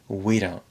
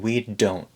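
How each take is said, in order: First: The D is tapped, smooth and reduced. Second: The D is said strongly and carefully. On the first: The speaker calls it right. "a very smooth and relaxed we don't" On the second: The speaker calls it wrong. "He's not saying we don't"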